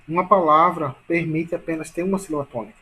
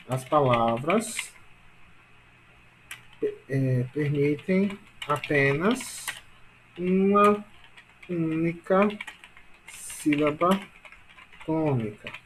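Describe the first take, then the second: First: Said in the usual way. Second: Slow, word by word with pauses; slow dictation. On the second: Shown as a demonstration. Teacher dictating a rule to class, slow dictation. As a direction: dictate in small pieces for note-taking.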